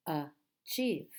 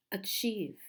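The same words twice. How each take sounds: First: "achieve" split as a, chieve with a gap; syllable by syllable. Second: Said in the usual way. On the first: Shown as a demonstration. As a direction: break "achieve" into two separate syllables. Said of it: "How many syllables in this word?". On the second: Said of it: "So again, we have".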